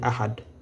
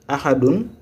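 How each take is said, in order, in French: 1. Le mot s'arrête brusquement sur un d bref. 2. Le mot se termine par une finale -un complète.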